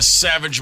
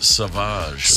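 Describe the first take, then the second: First: The name is said in a plain English way. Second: The name is said in a French-style way.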